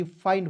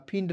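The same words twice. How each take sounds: First: फाइंड said with a long ai glide, like mind; correct reading find. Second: फिंड said with a short i, like fin-d; wrong reading find. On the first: Teacher tells students the right reading, long ai. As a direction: open फाइंड into a clear ai sound. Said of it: "फिंड नहीं पढ़ना है". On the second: Teacher warns students of the mistake, short i. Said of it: "नहीं पढ़ना है". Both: Shown as a demonstration.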